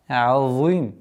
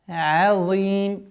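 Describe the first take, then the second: First: The ain sounds heavy, coloured by the emphatic sound. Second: The ain sounds light, not coloured by the emphatic sound. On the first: The speaker calls it wrong. "Нет" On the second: The speaker calls it right. "чтобы айн не должно э, попадать под влияние твердого произношения за"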